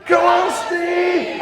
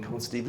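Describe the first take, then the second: First: High, loud, slow drawn-out chant; the whole stadium roaring for Steve; crowd shouting. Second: Softer, lower run-through of the cheer; just mark the chant for them; showing the audience their line quietly; quiet cue to the crowd. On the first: Retold or imitated. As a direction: chant his name as one huge crowd. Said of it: "everybody's shouting". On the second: Shown as a demonstration. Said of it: "Are you ready? 'Cause this is your bit".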